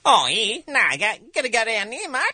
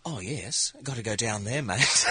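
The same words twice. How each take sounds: First: High, loud, fast broad Australian; Australian accent. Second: New Zealand accent. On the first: Comedian demos an Australian entering a room, loud Australian accent. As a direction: rattle it off like an Aussie. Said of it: "here's an Australian". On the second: Comedian demos a New Zealander entering a room, mild Kiwi accent. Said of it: "here's a New Zealander". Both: Shown as a demonstration.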